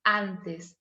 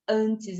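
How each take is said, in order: First: ANTES with an open, un-nasalised A. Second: ANTES with a closed, nasal Brazilian A. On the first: Spanish teacher modelling for students, open A in "antes". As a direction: say "antes" the Spanish way, first A open, final E clear. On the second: Spanish teacher showing students the sound to avoid, nasal A in "antes". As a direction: say "antes" with the first A nasalised, as in Portuguese. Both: Shown as a demonstration. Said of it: "eu não digo".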